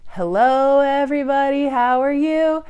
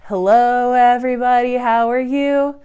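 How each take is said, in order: Both takes have the same delivery.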